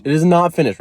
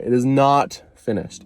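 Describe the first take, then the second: First: Louder and higher, punching "not"; emphatic, stress on not. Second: Slow and deliberate, each word spaced. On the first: Insisting again to viewers, louder with "not" punched. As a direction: hit "not" hard and loud. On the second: Insisting to viewers the tattoo is unfinished, slow and deliberate. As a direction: spell it out slowly like a rule. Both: Shown as a demonstration. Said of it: "Repeat after me, not finished".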